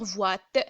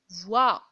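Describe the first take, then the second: First: A final T sound is pronounced. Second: The word ends without a T sound. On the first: The speaker calls it wrong. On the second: The speaker calls it right.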